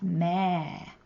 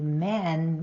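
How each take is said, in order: First: "me" with the eh drawn out; long vowel. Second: Said in the usual way. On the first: Shown as a demonstration. Teacher showing how a dropped letter lengthens the vowel, long "me". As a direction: stretch the vowel of "me" well past usual. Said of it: "that sound lasts longer". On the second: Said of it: "the vowel might get longer".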